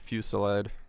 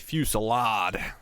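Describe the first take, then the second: First: It is said without an American accent. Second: It is said with an American accent.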